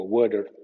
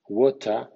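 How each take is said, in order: First: Water with a voiced tapped T; American flap T. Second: Water with a crisp T; British water. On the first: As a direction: say water as "wader", American style. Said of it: "T suene D". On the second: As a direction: say water with a clear T, British style. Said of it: "T suene D entre sonidos vibrantes". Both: Shown as a demonstration.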